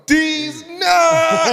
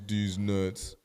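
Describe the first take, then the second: First: It is said with lively, playful energy. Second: It is said flatly, without much energy.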